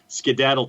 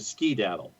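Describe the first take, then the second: First: The stress is on the second syllable. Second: The stress is on the first syllable. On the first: This is the more widespread form. "it goes from the second syllable" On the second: This is the more regional, suburban form. "to the first syllable"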